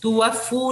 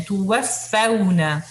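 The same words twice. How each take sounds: First: तुवफ़्फ़ू ending on a plain u; wrong pronunciation. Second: तुवफ़्फ़ौना with the au glide and a doubled fa; correct pronunciation. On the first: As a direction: show तुवफ़्फ़ू as the mistake. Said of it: "फू नहीं पढ़ना इसे". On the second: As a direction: read तुवफ़्फ़ौना with a clear au. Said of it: "मद लीन है". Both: Shown as a demonstration.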